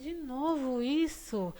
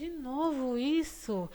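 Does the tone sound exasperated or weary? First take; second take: weary; weary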